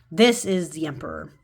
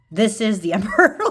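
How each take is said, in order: First: "This" leaned on with a falling tune, calm; "This" stressed, the phrase falling to a firm close. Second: "This" stressed and louder, rising, with a laugh; "This" hit harder, rising tune, a laugh before "emperor"; laughing emphasis. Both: Real, not acted.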